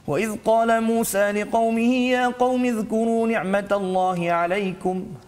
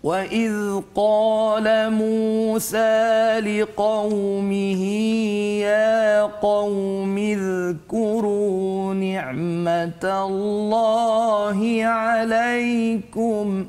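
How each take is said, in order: First: It is recited very fast, with no melody. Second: It is recited very slowly and melodiously. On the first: "bacaan yang paling laju pula dipanggil sebagai al-hadar" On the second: "Itu contoh"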